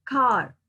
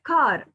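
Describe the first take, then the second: First: "car" meant with a long ah and little r; British-style "car", open ah; British pronunciation. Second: "car" with the r sounded at the end; American-style "car" with an r; American pronunciation. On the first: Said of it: "in British". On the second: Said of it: "you will say car in American". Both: Shown as a demonstration.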